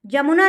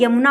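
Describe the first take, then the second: First: जमुना opening on j instead of y; colloquial pronunciation. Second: Said in the usual way. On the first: Shown as a demonstration. Teacher shows the common wrong form, starting with j. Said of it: "जमुना नहीं होता है". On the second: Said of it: "यमुना होता है".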